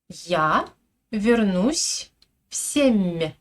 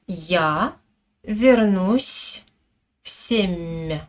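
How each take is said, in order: First: The soft consonants are pronounced in a normal way. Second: The soft consonants are pronounced with clear exaggeration.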